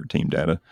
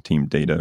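First: "Data" with a short a, as in "dad"; short-a pronunciation. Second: "Data" with a long a, as in "day"; long-a pronunciation. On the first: Host naming rival pronunciation teams, DAT-uh version. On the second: Host naming rival pronunciation teams, DAY-tuh version. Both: Shown as a demonstration. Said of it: "what team you're on".

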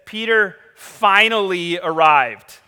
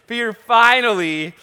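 First: "finally" drawn out slow and loud; stress on finally. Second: "finally" pushed high and loud through a laugh; laughing stress on finally. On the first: Preacher savoring the word "finally" for the congregation. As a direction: lean on "finally" like it took forever. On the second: Preacher laughing as he repeats Peter finally. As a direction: chuckle and punch "finally". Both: Shown as a demonstration. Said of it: "Did you catch that word that he uses?".

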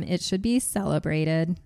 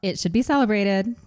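First: Flat monotone robotic reading. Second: Expressive reading. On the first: Real, not acted. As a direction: read it like a machine, no feeling. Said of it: "You read that like a robot". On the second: Shown as a demonstration. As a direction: lively reread with a rising tune. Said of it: "That sounds less robotic".

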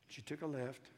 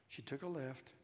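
The two takes are said the same way.

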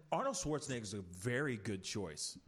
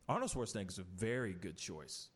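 The two takes are said the same way.

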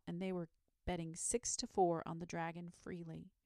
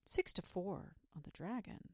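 First: Said in the usual way. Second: Sad, murmured repeat. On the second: A narrator's reading. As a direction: murmur it sadly to yourself. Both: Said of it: "murmured Saint George sadly".

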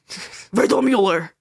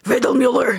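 First: Slow, mock-angry Riddlemuller; mock angry German. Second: Said in the usual way. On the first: Shown as a demonstration. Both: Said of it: "You have to say it really angry".

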